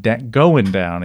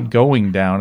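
First: The final G sound in going is dropped. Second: The final G sound in going is pronounced. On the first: It sounds relaxed and casual. The speaker calls it right. "We got to drop the G" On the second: It sounds too formal and stiff. The speaker calls it wrong. "if we say going down, it's just a little... too uptight"

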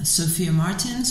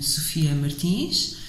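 First: The name is said with English pronunciation. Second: The name is said with Portuguese pronunciation.

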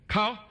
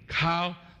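First: The vowel is short with a high pitch. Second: The vowel is long with a level pitch. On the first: It means to investigate. "short high sound" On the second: It means to kneel down. "the long level"

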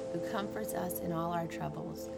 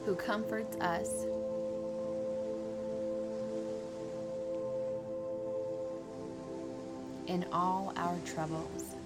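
First: It is read at a normal pace. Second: It is read at a slower pace.

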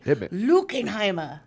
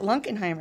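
First: The name is said with a harsh German pronunciation. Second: The name is said with a plain American pronunciation. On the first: The speaker calls it right. "That's how the Germans pronounced it when we were in Germany" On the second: The speaker calls it wrong. "We've been saying it in our family for years"

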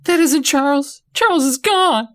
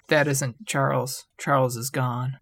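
First: It is shrieked loudly with strong emotion. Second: It is said flatly, without much force.

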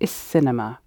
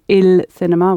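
First: The article ends with an S sound. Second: The article ends with a clear L sound. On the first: The speaker calls it right. "we're saying is cinema" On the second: The speaker calls it wrong. "instead of saying il cinema"

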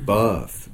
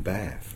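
First: The vowel is long and drawn out. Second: The vowel is short and clipped. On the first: The speaker calls it right. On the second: The speaker calls it wrong.

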